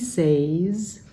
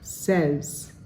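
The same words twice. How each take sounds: First: The vowel is a long A, as in say. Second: The vowel is a short E, as in met. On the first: The speaker calls it wrong. "Many Indonesians read that and say" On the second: The speaker calls it right. "I call that short E. It's sort of like met"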